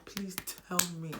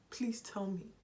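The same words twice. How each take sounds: First: Said in the usual way. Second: Unvoiced pleading whisper. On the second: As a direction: whisper the plea to the camera. Rhetorical plea to viewers.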